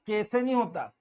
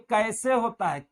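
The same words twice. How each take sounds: First: कैसे said as "kese"; कैसे with no opening "a"; wrong single vowel. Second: कैसे said as "kaa-ese"; correct double vowel. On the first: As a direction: keep one pure "e" in कैसे. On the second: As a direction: glide कैसे from "a" into "e". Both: Shown as a demonstration.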